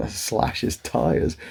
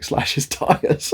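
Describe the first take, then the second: First: Incredulous echo. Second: Mum's suggestion. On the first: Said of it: "What the fuck, Mum?". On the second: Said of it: "my mum was like". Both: Retold or imitated.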